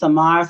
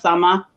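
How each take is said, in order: First: The name ends with an audible R sound. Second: The name ends in a vowel, no R. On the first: The speaker calls it wrong. "they put Samar" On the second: The speaker calls it right. "but it was probably Sama"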